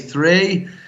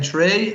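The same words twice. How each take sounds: First: It is said with a softened accent. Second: It is said in a broad Irish accent.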